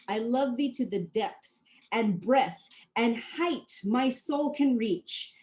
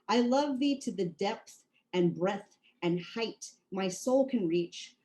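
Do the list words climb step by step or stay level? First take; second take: climbing; level. First: Each listed word steps higher than the last. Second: The listed words get equal, level weight. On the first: The speaker calls it right. "you can hear how I'm climbing those steps" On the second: The speaker calls it wrong. "I could give them the same weight"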